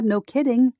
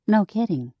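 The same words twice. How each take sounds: First: Sarcastic. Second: Said in the usual way. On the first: A narrator's reading. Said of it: "sister's sarcastic remark".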